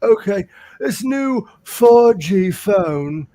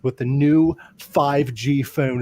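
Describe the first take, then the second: First: Slow, higher, louder fumbling of the line. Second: Spelled out slowly; feed the line slowly and clearly; slow prompting read; slow coached line. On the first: Retold or imitated. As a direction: get the line wrong in a slow daze. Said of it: "He's like". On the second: Shown as a demonstration. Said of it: "all you gotta say is".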